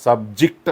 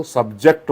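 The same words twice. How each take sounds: First: सब्जेक्ट stressed on the first syllable, SUB-ject; noun stress. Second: सब्जेक्ट stressed on the second syllable, sub-JECT; verb stress. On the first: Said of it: "noun म्हणून काय होतो". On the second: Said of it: "तर त्याचा उच्चार हा काय होतो". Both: Shown as a demonstration.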